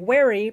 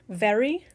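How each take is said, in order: First: The word begins with a rounded W sound. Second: The word begins with a buzzing V sound. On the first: "slip in and say wary because they are overcorrecting their accent" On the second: "a word that's spelled with a V"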